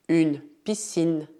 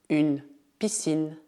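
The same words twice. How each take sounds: Both takes have the same delivery.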